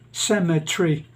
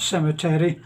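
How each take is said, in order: First: It uses the northern English stress pattern. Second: It uses the local Philippine stress pattern. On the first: "as a northerner from the north of England, I would say" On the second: "not cemetery. Um, but they would say"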